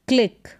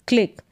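The two takes are said the same way.

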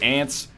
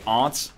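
First: It is said the North American way. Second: It is said the British way.

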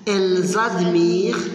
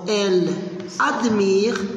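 First: The words are joined with a linking z sound. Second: The words are said without a linking z sound. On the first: "il y a aussi une liaison, donc je prononce" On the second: "ici nous avons elles admirent"

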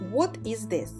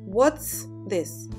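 First: The verb is said as a full word. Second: The verb is shortened to a short s.

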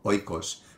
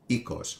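First: It is said with the Erasmian pronunciation. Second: It is said with the modern Greek pronunciation.

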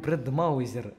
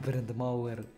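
First: A 'z' sound comes before the final syllable. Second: No 'z' sound comes before the final syllable. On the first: The speaker calls it wrong. "я говорил Брендмаузер" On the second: The speaker calls it right. "а не Брендмауэр"

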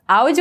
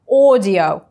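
First: It begins with two separate vowels, 'ah-oo'. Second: It begins with a single 'aw' vowel. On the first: The speaker calls it wrong. "Аудио это не по-английски" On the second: The speaker calls it right. "Audio это по-английски"

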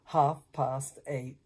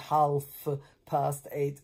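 First: The L in 'half' is silent. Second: The L in 'half' is pronounced. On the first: The speaker calls it right. "The L before the F is not pronounced, therefore 8:30" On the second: The speaker calls it wrong. "not say 8:30, as many of my students say"

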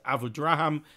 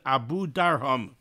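First: The name is said as Draham, r before a. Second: The name is said as Darham, a before r. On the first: The speaker calls it wrong. "which most people pronounce Abu Draham, which I think is incorrect" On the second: The speaker calls it right. "the proper pronunciation is Abu Darham"

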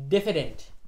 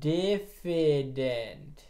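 First: The word is said at normal speed. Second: The word is said slowly and drawn out.

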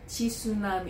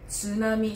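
First: A vowel is inserted between the t and s. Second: The t and s form one cluster. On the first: The speaker calls it wrong. "não é tsunami" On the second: The speaker calls it right. "é tsunami, são três letras"

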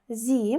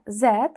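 First: The letter name is said the American way. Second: The letter name is said the British way. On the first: "в залежності від британського чи американського варіанту" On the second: "в залежності від британського чи американського варіанту"

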